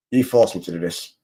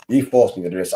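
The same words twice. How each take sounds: First: Lower, hammed-up menacing voice; mock villain. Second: Said in the usual way. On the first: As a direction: play the cartoon baddie, low and grave. Repeated mock threat.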